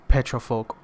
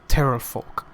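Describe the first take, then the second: First: The word begins with a p sound. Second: The word begins with a t sound. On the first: "There's eight petrofolk" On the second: "or as he says, eight terrorfolk"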